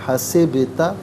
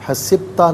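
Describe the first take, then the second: First: The b sound bounces with a slight echo. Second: The b sound is clipped with no echo. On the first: The speaker calls it right. "आवाज़ लौटती हुई महसूस होनी चाहिए" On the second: The speaker calls it wrong. "नहीं"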